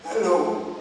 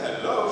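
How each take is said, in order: First: Mimicked laryngitis greeting; imitated hoarse drive-thru worker; hoarse intercom voice. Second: Said in the usual way. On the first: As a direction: answer the drive-thru speaker with a put-on hoarse voice. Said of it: "After hearing her voice". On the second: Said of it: "I said".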